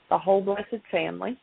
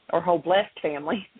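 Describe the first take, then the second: First: "blessed" said as BLESS-ed; two-syllable blessed. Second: "blessed" said as BLEST; one-syllable blessed. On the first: Mother reading out her mock résumé, "blessed" as BLESS-ed. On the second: Mother correcting her reading, "blessed" as BLEST. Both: Real, not acted.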